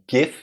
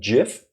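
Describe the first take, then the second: First: It begins with a hard g sound. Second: It begins with a soft j sound. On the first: The speaker calls it wrong. "it's not GIF" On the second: The speaker calls it right. "as in giraffe and Joe-rilla"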